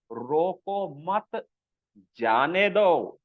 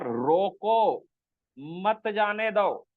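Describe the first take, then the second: First: "रोको मत", drawn out, a pause, then "जाने दो"; group "रोको मत" together, break, then slowly "जाने दो"; pause after मत. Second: "रोको" long and falling, a pause, then "मत जाने दो"; pause after रोको. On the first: Teacher shows how a pause changes meaning, pause after मत. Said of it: "कहाँ रुकना है, कहाँ नहीं रुकना है". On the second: Teacher shows the opposite meaning, pause after रोको. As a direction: stop on "रोको", then run "मत जाने दो" together slowly. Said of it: "कहाँ रुकने से बिल्कुल उल्टा". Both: Shown as a demonstration.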